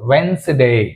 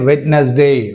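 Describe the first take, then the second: First: The middle d sound is dropped entirely. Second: A middle d sound and extra syllable are pronounced. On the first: The speaker calls it right. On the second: The speaker calls it wrong.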